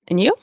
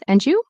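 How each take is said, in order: First: The d is dropped before the y sound. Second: The d and y merge into a j sound. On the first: "I'm going to get rid of the D" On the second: "it can also turn into a J sound"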